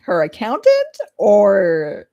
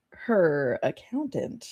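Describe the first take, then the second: First: Accountant slow and loud, falling; stress on accountant. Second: Her stressed, slow and soft, suggestive. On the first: Player doubting the stranger's job, accountant drawn out and louder. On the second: Player hinting at romance with the aunt, her stressed, slow and soft. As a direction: linger on her as a sly hint. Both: Shown as a demonstration. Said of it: "her accountant or, like, her accountant".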